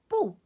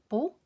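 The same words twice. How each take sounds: First: The syllable has a sharply falling fourth tone. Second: The syllable has a rising second tone. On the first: "En fire-tone bo" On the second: "den anden anden-tone bo"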